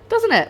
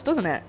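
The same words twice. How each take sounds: First: Much higher and louder, bouncing with delight; squeaky excited echo. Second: Said in the usual way. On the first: Real, not acted. Cook asks viewers about her orange sauce, squeaky and excited. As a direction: squeal it back at yourself, thrilled.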